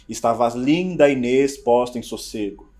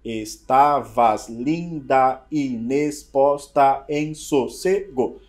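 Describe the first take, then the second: First: It is said smoothly, as when reciting. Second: It is broken up syllable by syllable.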